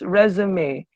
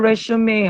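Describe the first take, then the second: First: The middle consonant is a buzzing z sound. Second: The middle consonant is a hissing s sound. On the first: The speaker calls it right. "There should be Z there" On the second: The speaker calls it wrong. "Di na siya resume"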